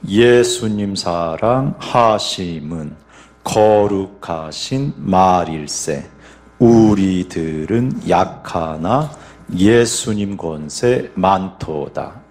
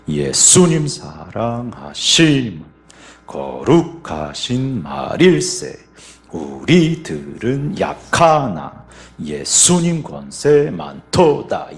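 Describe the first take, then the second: First: The stress falls on the first beat of each group. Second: The stress falls on the second beat of each group. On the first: "먼저 1박 강세입니다" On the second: "2박의 강세를 한번 넣어볼게요"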